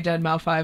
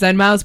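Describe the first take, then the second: First: The name ends with the word 'five'. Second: The name ends with the word 'mouse'. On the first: This is how the name looks when read. The speaker calls it wrong. "I would say Deadmau five" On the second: This is the name's real pronunciation. The speaker calls it right. "I know it's Deadmau"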